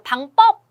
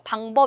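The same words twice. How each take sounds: First: The second syllable starts with a tensed consonant. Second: The second syllable starts with a plain consonant. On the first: The speaker calls it wrong. "방법 이러지 않잖아요" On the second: The speaker calls it right. "방법 이러죠"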